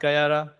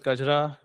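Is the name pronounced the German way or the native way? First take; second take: German; native. First: The name is said with a German-style pronunciation. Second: The name is said with its native pronunciation. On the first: The speaker calls it wrong. "not like how Germans like to pronounce it. It's not Gayara" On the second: The speaker calls it right. "it's pronounced as Gajra"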